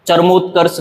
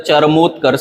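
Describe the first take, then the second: First: चरमोत्कर्ष run together, char-mut-kars; wrong pronunciation. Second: चरमोत्कर्ष with a drawn mo, cha-ra-mot-karsh; correct pronunciation. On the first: Teacher showing the mistake, चरमोत्कर्ष said with short middle vowel. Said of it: "गलत है". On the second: Teacher correcting it, चरमोत्कर्ष said with long mo. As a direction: lengthen mo in चरमोत्कर्ष. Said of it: "सही है". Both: Shown as a demonstration.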